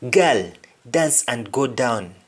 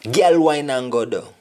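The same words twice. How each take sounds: First: Said in the usual way. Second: Put-on girl said as "gal", Patois vowels; Patois line before its English gloss; Jamaican Patois. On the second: Shown as a demonstration.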